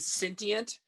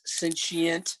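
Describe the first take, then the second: First: The middle consonant is a hard t sound. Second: The middle consonant is a sh sound. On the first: The speaker calls it wrong. "I kept saying sentient because that's how it's spelled" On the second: The speaker calls it right. "the T I is pronounced as a she"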